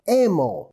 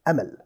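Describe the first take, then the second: First: The name has an English pronunciation, sounding like emo. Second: The name has a plain Arabic pronunciation.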